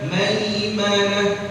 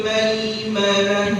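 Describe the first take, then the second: The two takes are said the same way.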